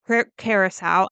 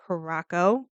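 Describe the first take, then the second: First: Curacao restarted as "CARE-uh-sow"; self-corrected pronunciation. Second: Curacao said as "kuh-ROCK-oh"; mistaken pronunciation. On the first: Fixing the slip mid-story, Curacao pronounced "CARE-uh-sow". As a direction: catch yourself, say Curacao ending in "sow". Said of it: "It's actually pronounced Curacao". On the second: Telling where the ship is, Curacao pronounced "kuh-ROCK-oh". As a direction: stress the middle of Curacao, hard k. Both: Real, not acted.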